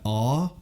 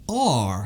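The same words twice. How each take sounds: First: The letter ends without an audible r sound. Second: The letter ends with a strong r sound. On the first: "if I say the letter R, they don't understand" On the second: "I have to go R ... It's just like the American like rolled R"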